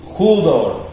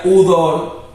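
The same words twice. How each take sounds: First: "judor" slowly, opening on a Spanish jota; initial J sound. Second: "udor" slowly, starting straight on the U; no initial J. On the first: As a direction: say "judor" with an aspirated J first. ("judor" lento, con jota inicial) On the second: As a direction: say "udor" with no J sound in front. ("udor" lento, sin jota inicial) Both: Shown as a demonstration. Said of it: "le agrega una J inicial".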